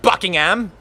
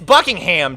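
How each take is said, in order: First: The last syllable is reduced to 'um'. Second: The last syllable is a full 'ham'. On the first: The speaker calls it wrong. "I'm not a poser" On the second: The speaker calls it right. "I'm gonna say it like uh like in my native tongue"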